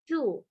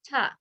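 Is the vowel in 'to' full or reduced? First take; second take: full; reduced. First: The vowel is full and long, like 'too'. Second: The vowel is short and reduced, like 'tuh'. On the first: The next word starts with a vowel. "with more emphasis" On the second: The next word starts with a consonant. "you would pronounce it as the word ta, as the beginning of the word tug"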